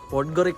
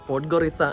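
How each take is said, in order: First: The word ends with a 'ka' sound. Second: The word ends with an 'sa' sound. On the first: The speaker calls it wrong. "പോഡ്ഗോറിക്ക അല്ല" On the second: The speaker calls it right. "എന്നാണ് പ്രൊനൗൺസിയേഷൻ"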